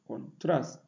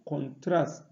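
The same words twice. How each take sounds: No difference in how they are said.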